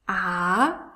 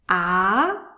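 Both takes have the same delivery.

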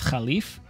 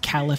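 First: The word is pronounced the classical Arabic way. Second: The word is pronounced the anglicized English way. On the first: "they pronounce Caliph as Khalif" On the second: "I will be using the westernized pronunciation"

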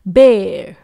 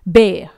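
First: It is said in an American accent, with r. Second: It is said in a British accent, without r. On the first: "US के accent में ... आर का sound आ जाएगा" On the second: "तो ये है UK का accent"

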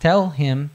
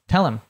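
First: The h in him is clearly pronounced. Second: The h is dropped and him links on. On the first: "To tell him becomes" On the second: "becomes tell him or tell her"

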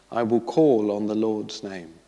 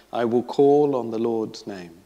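Both takes have the same delivery.

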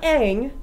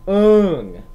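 First: The vowel sounds like the one in 'cat'. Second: The vowel sounds like the one in 'hung'. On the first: This is the original series' version of the name. The speaker calls it right. "Not Aang" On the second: This is the film's version of the name. The speaker calls it wrong. "he pronounced it Ung"

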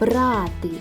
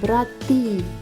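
First: The stress is on the first syllable. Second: The stress is on the second syllable. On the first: It means to take. "Перший" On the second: It means brothers. "Другий склад"

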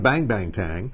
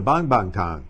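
First: The vowel in bang is an English-style 'ang'. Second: The vowel in bang is a soft open 'ah'. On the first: The speaker calls it wrong. "most Americans, when they see A-N-G, they pronounce it ang" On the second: The speaker calls it right. "in Chinese, it's a soft A"

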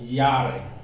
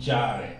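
First: It starts with a Y sound. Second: It starts with an English J sound. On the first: The speaker calls it right. "it's pronounced Y. So jare" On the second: The speaker calls it wrong. "This is not J as it's pronounced in English. So you can't say jare"

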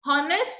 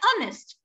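First: The word begins with an audible h sound. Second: The word begins directly with a vowel sound. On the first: The speaker calls it wrong. "हॉनेस्ट नहीं बोलते हैं हम" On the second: The speaker calls it right. "H का sound यहाँ पे क्या है, silent है"

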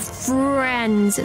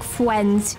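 First: The r is a clear, hard R sound. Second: The r sounds like a W. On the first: "friends with that hard R" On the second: "sometimes it sounds like a W"

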